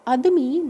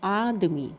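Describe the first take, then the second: First: The first vowel is short. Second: The first vowel is long. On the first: The speaker calls it wrong. "नहीं" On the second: The speaker calls it right. "आ आता है"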